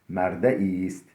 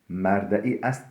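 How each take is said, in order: First: The final 'est' is merged into the word. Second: The final 'est' is said as a separate word. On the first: The speaker calls it right. "estin hemzesi hasf olunur" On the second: The speaker calls it wrong.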